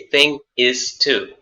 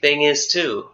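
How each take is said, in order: First: The three words are said separately, one by one. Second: The three words run together as one sound. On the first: The speaker calls it wrong. "we don't say thing is too" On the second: The speaker calls it right. "one continuous sound"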